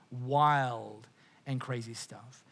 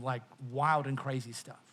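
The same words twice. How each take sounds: First: Wild and crazy stuff drawn out, each word slow and weighed; slow emphatic repeat. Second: Said in the usual way. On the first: Real, not acted. Preacher repeating to the congregation, slow emphatic echo.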